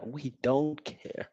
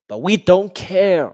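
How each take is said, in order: First: Slow, soft, dismissive; mock throwaway. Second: Slow, loud, high gloat; gloating taunt. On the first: Fan mocking rivals, a soft slow shrug. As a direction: shrug it off slowly. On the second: Fan taunting rivals, a loud slow gloat. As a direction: rub it in, drawn out. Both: Real, not acted.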